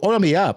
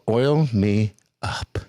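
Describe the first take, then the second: First: It is said fast. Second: It is said slowly.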